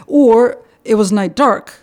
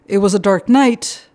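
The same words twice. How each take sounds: First: "dark" moved to the end and leaned on, slow and louder; stress on dark. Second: "night" placed last and lifted with a rise; stress on night. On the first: Translator showing Russian end emphasis, stress on dark. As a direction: slowly punch "dark" at the end of "it was night dark". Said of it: "when you really want to say that it was, you know, there was, like, no moonlight".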